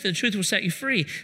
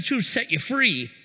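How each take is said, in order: First: It sounds gentle and reassuring. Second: It sounds scolding, like a wagging finger.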